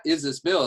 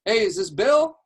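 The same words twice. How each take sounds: First: Said in the usual way. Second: High, loud, upbeat question; friendly cold-call opener. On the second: Shown as a demonstration. Coach calls a random agent, high and chummy. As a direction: ask it like you already know him. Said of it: "a certain type of energy that he had".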